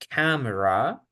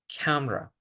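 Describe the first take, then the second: First: All three syllables are said fully. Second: The middle vowel is dropped from the word. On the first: The speaker calls it wrong. "En vez de decir" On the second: The speaker calls it right.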